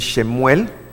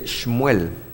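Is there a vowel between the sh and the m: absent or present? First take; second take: present; absent. First: A full e vowel follows the sh. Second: There is no vowel between sh and m. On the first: The speaker calls it wrong. "Algunos dicen Shemuel, pero no es" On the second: The speaker calls it right. "Se dice Shmuel"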